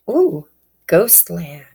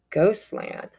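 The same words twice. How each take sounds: First: Breathy whisper of the card name. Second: Said in the usual way. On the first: Real, not acted. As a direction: whisper it like a secret. Reader reveals oracle card name.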